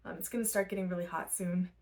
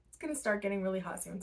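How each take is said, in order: First: Said in the usual way. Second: Hiccuping mid-sentence; interrupted by hiccups. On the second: Real, not acted. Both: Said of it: "Sorry, I keep, like, hiccuping".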